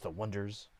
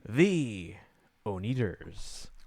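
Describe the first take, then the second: First: The name starts with 'wun' and sounds like 'wonders'. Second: The name starts with 'oh' and sounds like 'oh-nee-ders'. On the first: The speaker calls it right. "It's the Wonders" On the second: The speaker calls it wrong. "everyone was mispronouncing it. They were calling it the Oneaters"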